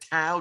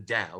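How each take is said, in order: First: The word is said in an anglicized way. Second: The word is said in a native-style way. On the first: This is how a British speaker would have said it. "Brits anglicize everything. So he would have said Tao" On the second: This is the technically correct original pronunciation. "the technical way of saying it, the Indian way"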